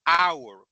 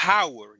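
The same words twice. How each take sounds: First: "hour" said ow-er, no H at all; correct, silent H. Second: "hour" with the H sounded, like how-er; deliberately wrong. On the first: Teacher showing the right "hour" after the wrong one, silent H. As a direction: drop the H in "hour", open on the vowel. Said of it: "yo digo hour". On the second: Teacher showing the wrong way to say "hour", H voiced. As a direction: sound the H in "hour" on purpose, as a mistake. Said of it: "yo no digo hour". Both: Shown as a demonstration.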